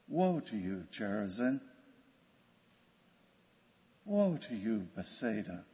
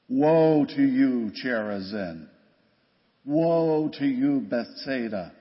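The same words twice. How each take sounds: First: It is said gently, with sorrow rather than anger. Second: It is said sternly, like an angry prophet.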